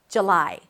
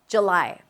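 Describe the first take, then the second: First: The first vowel is reduced to a schwa. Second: The same.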